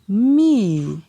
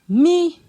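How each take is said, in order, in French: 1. Il est prononcé sur un ton descendant. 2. Il est prononcé sur un ton haut. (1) "Ton descendant" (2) "Ton haut"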